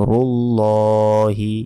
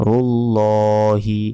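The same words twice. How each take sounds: No difference in how they are said.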